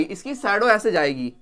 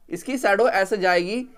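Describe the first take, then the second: First: Said in the usual way. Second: Slower repeat with weight on shadow; teacher dictating slowly so the class can note it down; slow dictation. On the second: Shown as a demonstration. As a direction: spell it out slowly for students, leaning on shadow. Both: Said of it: "repeats line for the class".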